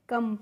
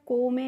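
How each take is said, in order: First: The word sounds like 'kum' with an 'uh' vowel. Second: The word sounds like 'ko-meh' with an 'oh' vowel. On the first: The speaker calls it right. "कम पढ़ते हैं" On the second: The speaker calls it wrong. "इसे हमें को में नहीं पढ़ना होता है"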